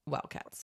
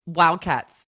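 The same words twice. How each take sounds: First: Whispered mock team cheer; hushed team cheer. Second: Loud mock team cheer. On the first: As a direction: whisper the team name like an echo. Hushed echo of team name. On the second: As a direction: call out the team name with force. Naming team, then hushed echo.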